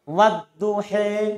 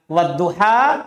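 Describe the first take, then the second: First: The final vowel is bent toward 'e'. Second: The final vowel is a plain open 'a'. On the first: "Imalah itu antara alif dan ya" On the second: "itu bacaan biasa"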